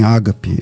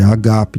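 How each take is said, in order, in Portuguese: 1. A primeira sílaba é tônica. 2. A primeira sílaba não é tônica. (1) "Nem, nem ágape" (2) "é agape"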